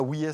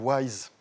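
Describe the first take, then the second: First: The name is said like 'wees', French-style. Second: The name is said like English 'wise'. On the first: The speaker calls it wrong. "c'est pas Ouies" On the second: The speaker calls it right. "c'est Wise. C'est beaucoup mieux quand on le prononce bien"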